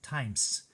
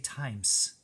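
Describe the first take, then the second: Both takes have the same delivery.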